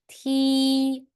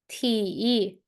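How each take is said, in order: First: The pitch stays high and level. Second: The pitch dips low, then rises. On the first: "the first one, first tone" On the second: "And how about the third?"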